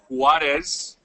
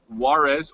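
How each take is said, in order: First: The name is said with Spanish sounds. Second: The name is said with English sounds. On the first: The speaker calls it right. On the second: The speaker calls it wrong.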